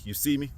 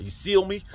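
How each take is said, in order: First: Said in the usual way. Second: "seal" as "see" and "feel" merged, pitched higher; blended slip of tongue. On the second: Shown as a demonstration. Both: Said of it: "Came out at the same time".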